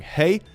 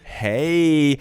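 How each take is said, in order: First: It is said as a plain, neutral greeting. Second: It is said in a playful, flirty way. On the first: It is just a greeting. "oh, greeting" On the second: The sender is flirting a little. "how you doing, wink"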